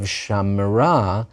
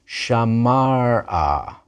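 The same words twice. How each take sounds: First: Shamra with the middle vowel dropped, said slowly; slow shamra, two syllables, no vowel after the m; contracted form. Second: Shamara with all three vowels, drawn out slowly; slow shamara, keep the ah after the m; full vowel kept. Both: Shown as a demonstration. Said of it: "the vowel is not replaced".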